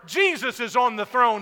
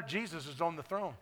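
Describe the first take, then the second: First: Jesus proclaimed loud at full preaching force; shouted proclamation. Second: Much softer, calm and settled; lowered voice. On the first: Pastor to the congregation, declaring loud. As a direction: ring it out over the congregation. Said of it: "I've been yelling and shouting". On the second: Pastor answering a doubter in the crowd, softly. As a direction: say it quietly and sure. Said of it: "so I'll lower my voice". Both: Real, not acted.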